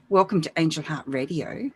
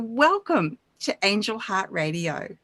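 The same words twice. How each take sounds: First: It is said flatly, with little energy. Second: It is said warmly, with strong energy.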